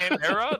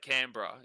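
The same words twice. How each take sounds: First: The middle vowel is said fully. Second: The middle vowel is dropped. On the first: An outsider says it this way. The speaker calls it wrong. "when Americans say Canberra, like that" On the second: Locals say it this way. The speaker calls it right. "you just take out the e"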